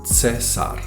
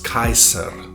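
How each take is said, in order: First: The first vowel is a single 'e' vowel. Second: The first vowel is an 'eye' diphthong. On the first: This is the later fifth-century pronunciation. "where the I becomes an E sound" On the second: This is the original classical pronunciation. "originally pronounced as Kaiser"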